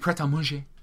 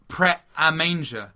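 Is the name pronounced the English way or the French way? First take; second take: French; English. First: The name is pronounced with French sounds. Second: The name is pronounced with English sounds. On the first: The speaker calls it wrong. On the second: The speaker calls it right.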